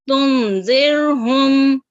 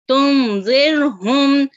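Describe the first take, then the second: Both takes have the same delivery.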